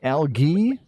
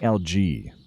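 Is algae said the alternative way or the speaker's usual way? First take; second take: alternative; usual. First: The word has the alternative, possibly British, pronunciation. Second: The word has the speaker's own usual pronunciation. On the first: Some other people say it this way. "Some people say algae. I don't know, is that the British pronunciation?" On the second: This is how the speaker learned to say it. "I say algae. ... that's just how I say it"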